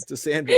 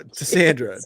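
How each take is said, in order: First: Much higher, rising sing-song toast; cheery toast. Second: Said in the usual way. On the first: Real, not acted. Co-host toasting the absent host mom, much higher cheery toast. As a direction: lift the glass and sing her name up high.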